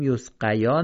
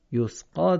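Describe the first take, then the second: First: یسقیا with the ی sounded; wrong reading. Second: یسقا read yasqā; correct reading. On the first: Teacher showing students what to avoid. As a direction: demonstrate the mistaken یسقیا. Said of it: "یسقیا نخونیم". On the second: Teacher giving students the right form. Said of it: "یسقا درسته". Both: Shown as a demonstration.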